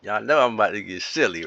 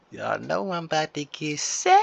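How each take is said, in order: First: Said in the usual way. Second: Higher, sing-song silly take with a rising end; playful high-pitched teasing. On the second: Shown as a demonstration. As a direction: play it goofy and lifted, like a tease.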